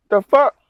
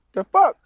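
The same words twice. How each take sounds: First: High, loud disbelief; can't believe this; incredulous. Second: Very high squeak of disbelief; even higher disbelief; incredulous. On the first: Trucker reacting to the cop, loud disbelief. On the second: Trucker reacting to cop's question, higher disbelief. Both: Retold or imitated.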